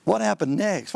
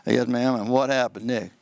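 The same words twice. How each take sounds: First: Mock questioning. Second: Low, level, uninterested questioning; lower-pitched monotone courtroom voice. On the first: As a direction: throw the dull question back critically. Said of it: "What kind of question's that?". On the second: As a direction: drone it out like a bored lawyer. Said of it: "If I'm back there monotone". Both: Shown as a demonstration.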